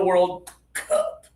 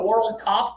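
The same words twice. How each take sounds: First: Cup is said with force from the stomach. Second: Cup is said weakly, sounding like cop. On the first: It clearly means the trophy. The speaker calls it right. "you mean the World Cup" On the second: It sounds like a police word. The speaker calls it wrong. "Otherwise, we're going to say"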